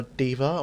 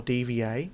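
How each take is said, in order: First: "D.Va" read as a word, not spelt out; D.Va as one word. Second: "D V A" as three separate letter names, dee-vee-ay; D V A spelt out. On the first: Reviewer offering one way to pronounce her name, "D.Va" as a word. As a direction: say "D.Va" as a single name, DEE-va. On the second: Reviewer offering another way to pronounce her name, "D V A" spelt out. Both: Shown as a demonstration. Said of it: "however you want to pronounce her name".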